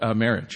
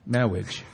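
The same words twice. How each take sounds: First: It is said in the speaker's normal voice. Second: It is said in an imitated movie-character voice.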